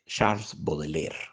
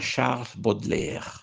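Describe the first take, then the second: First: The name is said with a Spanish accent. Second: The name is said with a French accent.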